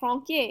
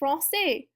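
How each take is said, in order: First: The middle consonant is a k sound. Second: The middle consonant is an s sound. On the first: "If our accent was not there, that would that word would be" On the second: "it's going to make a C sound like an S"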